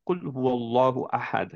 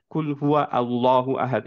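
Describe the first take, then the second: First: "কুল হুয়াল্লাহু আহাদ" run together, হুয়া sliding straight into ল্লাহু with no hamza; connected correct reading. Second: "কুল হুয়া আল্লাহু আহাদ" with হুয়া and আল্লাহু split apart, the hamza of আল্লাহু sounded; separated wrong reading. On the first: Teacher shows students the right way, "কুল হুয়াল্লাহু আহাদ" joined smoothly. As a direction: recite "কুল হুয়াল্লাহু আহাদ" joined in one flow, the আ of আল্লাহু dropped. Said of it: "আমরা পড়লাম".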